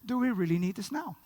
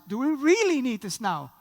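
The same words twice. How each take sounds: First: It is said plainly, without extra emphasis. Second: It is said with strong, heavy emphasis.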